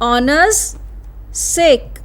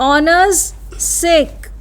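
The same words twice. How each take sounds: No difference in how they are said.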